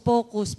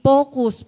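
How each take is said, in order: First: Said in the usual way. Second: Focus punched much louder; emphatic focus. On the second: Shown as a demonstration. Preaching the second point, Focus stressed loud. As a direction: hit Focus hard and loud.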